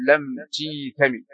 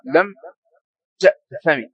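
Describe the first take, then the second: First: تيثمي with a long "ee" after the t; non-Hijazi form. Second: تأثمي said with an "a" after the t; Hijazi form. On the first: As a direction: prefix "tee-" in تيثمي. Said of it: "وأما هم فيجيزون هذا". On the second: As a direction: open prefix "ta-" in تأثمي. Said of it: "عن اللغة الحجازية ليس لهم إلا". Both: Shown as a demonstration.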